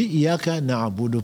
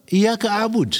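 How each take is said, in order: First: Said in the usual way. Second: "Iyyaka a'bud" pitched very high; rejected form. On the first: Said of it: "On dit Iyyaka na'budu". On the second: Shown as a demonstration. Preacher telling listeners what not to say, high-pitched stress on "a'bud". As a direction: lift "a'bud" sharply as the version to reject. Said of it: "on ne dit pas".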